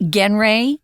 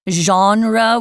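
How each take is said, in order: First: The word is said with an anglicized pronunciation. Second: The word is said with a French-style pronunciation. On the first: The speaker calls it wrong. "We don't say genre" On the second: The speaker calls it right. "we take the French pronunciation"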